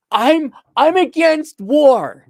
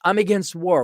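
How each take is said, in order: First: High, loud, drawn-out mock protester; mock a self-righteous pacifist, slow and loud; exaggerated slow, high-pitched idiot pacifist. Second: Lightly voiced mock pacifist; a hint of the idiot pacifist; toned-down mocking quote of a pacifist; idiot pacifist, mild. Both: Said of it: "the idiot pacifist".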